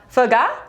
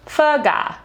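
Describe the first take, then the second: First: The pitch rises at the end like a question. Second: The pitch falls at the end like a statement. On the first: It becomes a different word. The speaker calls it wrong. "Question mark? No, that's a different word" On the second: It names the chicken dish. The speaker calls it right. "say it like a statement and come down"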